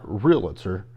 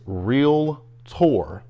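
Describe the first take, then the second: First: It has three syllables, with an extra vowel. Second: It has two syllables, with no extra vowel. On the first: The speaker calls it wrong. "there's not an A" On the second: The speaker calls it right. "there's one A in realtor. It's realtor"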